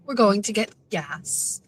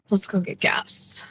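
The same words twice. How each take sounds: First: Said in the usual way. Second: Slow breathy whisper in a put-on accent. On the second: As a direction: whisper it slowly as a playful bit. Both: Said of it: "How many accents can I do today".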